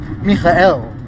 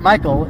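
First: The ending is said as a distinct 'el'. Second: The ending is blended in the usual English way. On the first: The speaker calls it right. "it's Michael" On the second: The speaker calls it wrong. "it's not Michael"

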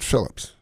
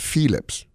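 First: The name is said with a common English pronunciation. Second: The name is said with a Dutch pronunciation. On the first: The speaker calls it wrong. "you don't pronounce it Philips" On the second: The speaker calls it right. "If you really want to be right, it's Philips"

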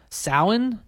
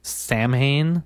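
First: The word is said the native, actual way. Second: The word is said the literal, naive way. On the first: The speaker calls it right. "it's actually pronounced Samhain" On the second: The speaker calls it wrong. "which you would think would be Samhain"

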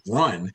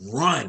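First: It is said somewhat louder. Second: It is said very loudly.

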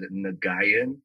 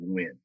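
First: Every letter of the name is sounded out. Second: The name sounds like one short syllable, win. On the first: The speaker calls it wrong. "I actually said Nguyen, like really, just really spelt it out" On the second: The speaker calls it right. "the proper way to say it is actually Win"

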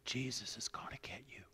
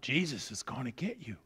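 First: It is said a little louder. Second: It is said very loudly.

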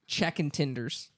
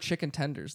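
First: The vowels are swapped in a Tennessee accent. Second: The vowels are said in a plain standard way. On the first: The speaker calls it wrong. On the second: The speaker calls it right.

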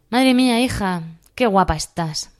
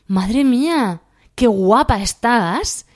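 First: It sounds sarcastic and disapproving. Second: It sounds genuinely admiring and impressed.

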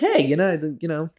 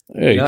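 First: It is said in a bright, upbeat voice. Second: It is said in a flat, low-energy voice. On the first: This is how to talk to kids. The speaker calls it right. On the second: This is how not to talk to kids. The speaker calls it wrong. "I didn't talk to them like this"

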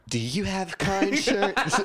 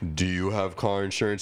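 First: It is said in a high, dorky voice. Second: It is said in a deep, strong voice.

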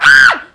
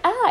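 First: It is a loud, piercing scream. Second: It is a quiet, mild cry.

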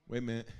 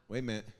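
The two takes are said the same way.

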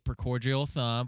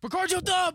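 First: It is said in a sarcastic tone. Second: It is said in an excited tone.

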